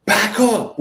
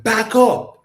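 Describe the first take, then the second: First: Curt, loud and higher, no patience; impatient command. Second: Loud, higher snap with no patience; impatient command. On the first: Driver telling him to back up, impatient and loud. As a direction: bark it like an annoyed stranger. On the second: Driver repeating the order, louder and impatient. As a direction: order him back, fed up. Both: Retold or imitated. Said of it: "with, like, no patience".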